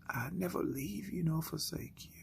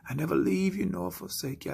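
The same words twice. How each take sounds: First: Soft whisper, no voice; still small voice. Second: Said in the usual way. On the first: Acted. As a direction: whisper the promise softly. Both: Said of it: "you continue to hear that voice".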